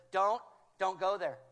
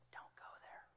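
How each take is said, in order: First: Louder, firm call to stop; urgent loud warning. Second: Unvoiced, barely audible warning; whispered gentle warning. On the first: Retold or imitated. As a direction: stop someone in their tracks. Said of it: "the Holy Spirit says". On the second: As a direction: breathe the warning like a secret. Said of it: "and he whispers".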